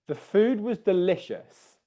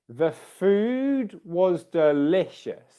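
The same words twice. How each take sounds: First: The sentence is spoken at a normal speed. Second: The sentence is spoken slowly.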